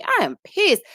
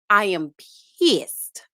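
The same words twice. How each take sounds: First: "I" jumped much higher and louder, rising through "pissed"; insist, making them hear it; stress on I. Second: "I am" then a pause, then "pissed." landing with a fall; pausing for effect. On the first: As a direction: hit the word "I" hard. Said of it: "Do y'all hear me?". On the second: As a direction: hold the beat before "pissed.". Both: Real, not acted.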